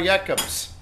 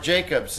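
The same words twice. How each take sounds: First: The name has a non-American pronunciation. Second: The name has an American pronunciation.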